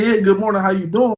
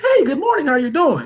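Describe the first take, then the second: First: He says it in his own natural voice. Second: He says it in a put-on voice.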